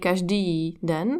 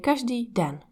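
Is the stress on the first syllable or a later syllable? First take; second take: later syllable; first syllable. First: The stress falls on a later syllable. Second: The stress falls on the first syllable. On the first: The speaker calls it wrong. "We don't say" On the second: The speaker calls it right. "we say"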